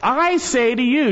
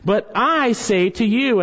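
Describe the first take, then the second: First: "I" raised high and pressed, rest falling; emphatic "I" in "I say to you". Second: Said in the usual way. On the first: Shown as a demonstration. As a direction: hit the "I" hard, then say the rest. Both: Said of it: "in the Greek language is emphatic".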